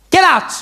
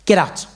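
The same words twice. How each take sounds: First: High, loud teacher's shout; shouted order. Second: Restrained teacher's dismissal; controlled order. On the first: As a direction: explode into a shouted dismissal. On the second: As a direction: order him out without raising your pitch. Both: Acted.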